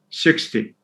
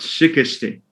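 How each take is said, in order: First: The consonant cluster is said without vowels. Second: A vowel breaks up the consonant cluster. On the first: The speaker calls it right. "say it in one go without having an intervening vowel" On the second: The speaker calls it wrong. "not sixty"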